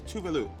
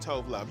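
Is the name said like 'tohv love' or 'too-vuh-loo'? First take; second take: too-vuh-loo; tohv love. First: It sounds like too-vuh-loo, three linked syllables. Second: It sounds like tohv love, two separate syllables. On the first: The speaker calls it right. "It is Tuvalu" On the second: The speaker calls it wrong. "we were saying Tove Love"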